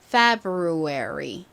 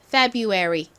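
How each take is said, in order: First: Each syllable is said slowly and carefully. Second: The syllables are said smoothly and relaxed.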